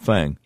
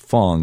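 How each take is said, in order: First: The vowel sounds like the 'a' in cat. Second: The vowel sounds like the 'o' in long. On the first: The speaker calls it wrong. "not Fang" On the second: The speaker calls it right. "in Chinese they pronounce it Fong"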